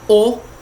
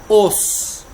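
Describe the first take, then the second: First: The final S is silent. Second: The final S is pronounced. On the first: It means several bones. "no plural é o, só que sem o S" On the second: It means one bone. "só que com a pronúncia do S"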